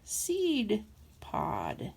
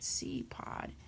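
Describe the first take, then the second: First: Each word is articulated clearly and separately. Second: The two words are slurred together unclearly. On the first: The speaker calls it right. "I should have said" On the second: The speaker calls it wrong. "I didn't enunciate very well"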